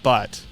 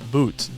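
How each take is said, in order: First: The vowel is short, like in 'but'. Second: The vowel is long, like in 'boot'. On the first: The speaker calls it wrong. "His name is not Butt" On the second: The speaker calls it right. "it's Boot"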